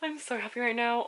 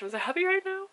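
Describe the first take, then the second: First: Said in the usual way. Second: Much higher happy squeal; excited squeal. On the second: Real, not acted. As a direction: squeal it out with joy. Repeated gush after box.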